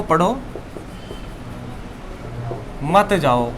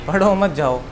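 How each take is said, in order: First: "पढ़ो", long pause, then "मत जाओ"; pause after पढ़ो. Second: "पढ़ो मत जाओ" with मत joined to पढ़ो; no pause after पढ़ो. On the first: Teacher showing how a comma changes meaning, long pause after "पढ़ो". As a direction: break after पढ़ो, keep मत joined to जाओ. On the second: Teacher showing the shifted comma, "पढ़ो मत" said as one unit. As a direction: run पढ़ो straight into मत. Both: Shown as a demonstration. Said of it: "आपने जानबूझ के इसका मीनिंग, इस कॉमे को अपना आप ही".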